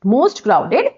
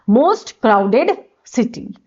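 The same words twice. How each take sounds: First: Said in the usual way. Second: Drawn-out, word by word; very slow dictation. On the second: Shown as a demonstration. Teacher dictating the phrase for students, very slow. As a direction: let each word sink in slowly. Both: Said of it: "one of the most लगाओगे।".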